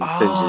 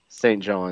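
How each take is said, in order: First: The words are run together into one quick word. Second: Both words are pronounced fully and separately.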